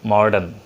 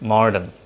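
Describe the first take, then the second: No difference in how they are said.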